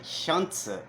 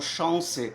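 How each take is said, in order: First: The word is said with German letter sounds. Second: The word is said with French sounds. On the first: "condizente com a pronúncia das letras da língua alemã" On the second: "os alemães falam chance"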